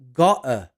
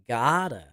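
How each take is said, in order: First: It is said with a British accent. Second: It is said with an American accent. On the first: "the British would say gotta" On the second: "the Americans would say gotta"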